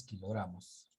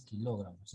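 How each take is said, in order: First: "kilogramos" with the stress on gra, falling after it. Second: "kilogramos" stressed on the second syllable, lo. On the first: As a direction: lean on the GRA in "kilogramos", quietly. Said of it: "es kilogramos". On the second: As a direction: put the weight on LO in "kilogramos". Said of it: "no es kilogramos". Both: Shown as a demonstration.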